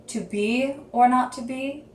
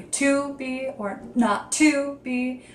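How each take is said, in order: First: BE carries the weight in "to be or not to be"; "to" said lightly, leaning on "be"; stress on BE. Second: Both TO words stretched and leaned on in "to be or not to be"; stress on TO. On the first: Student tries an emphasis for a script score, stress on "be". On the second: Student tries another emphasis for a script score, stress on "to". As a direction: draw out "to" each time, heavier than "be". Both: Shown as a demonstration. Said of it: "where you're putting that emphasis on words".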